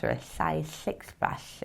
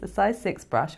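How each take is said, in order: First: Slow slurpy slug. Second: Said in the usual way. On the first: Pretend. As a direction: say it like a slimy slug. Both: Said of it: "if you're a slug".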